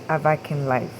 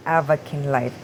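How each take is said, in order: First: Avakin with the middle syllable brought out, av-AK-in Life; other people's pronunciation. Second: Avakin with the stress up front, AV-a-kin Life; preferred pronunciation. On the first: Showing how some people say the name, alternative pronunciation. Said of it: "Some people say". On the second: Gamer showing how she says the name, preferred pronunciation. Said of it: "if I'm pronouncing it right, it's". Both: Shown as a demonstration.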